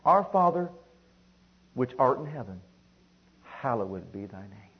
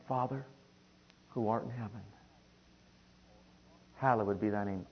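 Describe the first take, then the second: First: Deliberate prayer in falling steps; scripture recitation. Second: Soft, tender prayer; quiet, loving address sinking lower; child approaching father. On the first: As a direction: proclaim the first words, then ease down reverently. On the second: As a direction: say it gently and personally, in small phrases. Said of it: "as a child approaching a father". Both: Shown as a demonstration.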